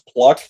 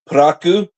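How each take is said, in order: First: It is said with English sounds, as one syllable. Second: It is said with Japanese sounds, as two syllables. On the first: "this is pronounced pluck" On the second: "the way it's pronounced in Japanese"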